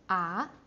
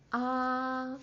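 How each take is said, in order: First: The pitch climbs upward from mid to high. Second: The pitch stays high and level. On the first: "you go up and climb up" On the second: "high and flat"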